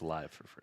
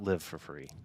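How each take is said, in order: First: Live rhymes with five. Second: Live rhymes with give. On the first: The speaker calls it right. "It's live for free" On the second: The speaker calls it wrong. "Definitely not live for free"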